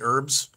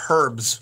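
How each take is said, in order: First: The word starts with a vowel, no h sound. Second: The word starts with an audible h sound. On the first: "I don't say an H. I say it like Americans" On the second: "in all the Harry Potter movies, they say herbs"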